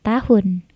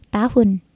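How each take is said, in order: The two takes are said the same way.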